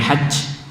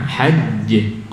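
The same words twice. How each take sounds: First: The final j trails off with breathy air. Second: The final j ends with a short bounce. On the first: The speaker calls it wrong. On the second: The speaker calls it right. "hajj qalqalah"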